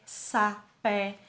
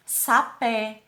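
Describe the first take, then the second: First: "sapé" split into sa, pé; syllable by syllable. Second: Said in the usual way. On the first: Shown as a demonstration. Teacher counting syllables for pupils, syllable by syllable. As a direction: say "sapé" in two separate beats. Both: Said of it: "duas sílabas".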